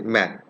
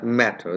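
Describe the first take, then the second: First: The middle consonant is a soft flapped d. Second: The middle consonant is a clear t sound. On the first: This is how native English speakers say it. "there is a difference like flapping ... they say" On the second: This is how speakers in the speaker's own country say it. "we say"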